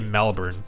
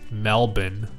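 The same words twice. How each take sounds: First: Melbourne is said in an American accent. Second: Melbourne is said the Australian way. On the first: The speaker calls it wrong. "I say Melbourne because I have an American accent" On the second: The speaker calls it right. "I have to say Melbourne"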